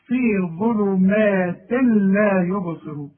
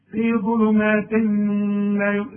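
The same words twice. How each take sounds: First: ظلمات لا merged into a doubled lam, slow; idgham demo. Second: ظلمات لا with a held nasal ghunna on the tanween; wrong nasal version. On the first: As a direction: slowly blend ظلمات لا with no tanween. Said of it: "اسمع". (إدغام التنوين في اللام ببطء) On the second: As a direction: hum the tanween before لا. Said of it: "اوعى تقول لي". (غنة خاطئة على ظلمات لا) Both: Shown as a demonstration.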